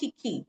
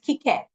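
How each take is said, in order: First: The name ends with an 'ee' sound. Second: The name ends with an 'eh' sound. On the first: The speaker calls it wrong. "It's not Kiki" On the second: The speaker calls it right.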